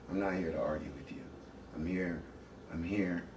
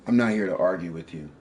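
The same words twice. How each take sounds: First: Calm. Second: Louder, firm declaration; forceful. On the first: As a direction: settle her down gently. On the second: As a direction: insist on it, voice raised. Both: Real, not acted. Argument, trying to calm down.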